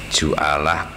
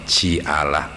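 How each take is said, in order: First: The first consonant is followed by an u vowel. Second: The first consonant is followed by an i vowel. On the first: "dibaca tiga wajah huruf jimnya" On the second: "dibaca tiga wajah huruf jimnya"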